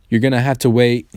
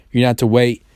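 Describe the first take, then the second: No difference in how they are said.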